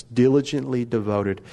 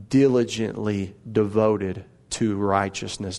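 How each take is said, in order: First: Said in the usual way. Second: "diligently devoted" drawn out slowly, each word weighted; deliberate, spaced-out stress on "devoted"; slow emphasis. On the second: Shown as a demonstration. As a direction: lean into "diligently" and stretch it.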